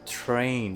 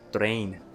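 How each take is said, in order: First: It starts with a T and a puff of air. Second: It starts with a D-like sound, no puff. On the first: The speaker calls it right. "with a strong unvoiced consonant with a puff of air" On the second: The speaker calls it wrong. "they will say as train"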